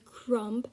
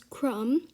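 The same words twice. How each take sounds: First: The word ends with an audible B sound. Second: The word ends on the M, no B sound. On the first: The speaker calls it wrong. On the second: The speaker calls it right.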